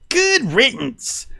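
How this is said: It is said in an imitation of Finnegan's voice.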